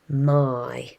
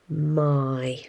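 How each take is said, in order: First: The word ends with an 'eye' vowel sound. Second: The same.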